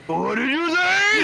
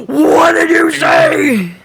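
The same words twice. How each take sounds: First: High, slow mocking echo. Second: Slow, stretched, distorted voice; disguised deep voice. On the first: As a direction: stretch it out, high and warped. Echoing the quoted line. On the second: Retold or imitated. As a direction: drag it out like a garbled entity. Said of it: "where Ion was just like".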